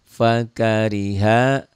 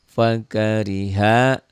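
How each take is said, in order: Both takes have the same delivery.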